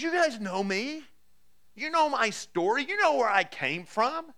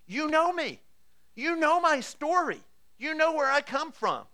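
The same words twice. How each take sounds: First: Higher, slow and pressing, leaning on each "know"; impassioned appeal. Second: Much higher and louder, falling hard on "know"; climactic appeal. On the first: Paul to the Jerusalem crowd, an impassioned higher plea. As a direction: plead with them to remember who you were. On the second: Paul to the crowd that knows him, a soaring climactic plea. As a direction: hammer home that they all know him. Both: Acted.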